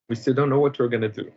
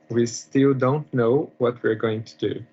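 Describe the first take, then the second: First: It is said fast. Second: It is said slowly.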